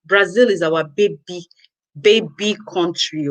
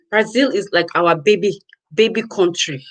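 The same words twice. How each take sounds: First: Slow it down to hammer the point; slow emphatic. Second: Said in the usual way. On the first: Real, not acted.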